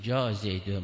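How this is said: It sounds cautionary, like a warning about him. Be careful, he is a spy. "مواظب باش این جاسوسه"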